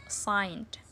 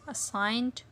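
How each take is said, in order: Both takes have the same delivery.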